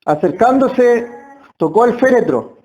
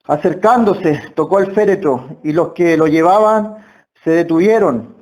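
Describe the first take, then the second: First: Said in the usual way. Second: Reading the verse. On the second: Shown as a demonstration. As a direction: read the verse aloud, lower and measured. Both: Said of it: "Versículo catorce".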